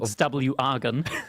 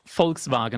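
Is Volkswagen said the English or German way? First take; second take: English; German. First: It is said with English pronunciation. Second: It is said with German pronunciation. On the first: The speaker calls it wrong. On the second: The speaker calls it right. "It's Volkswagen"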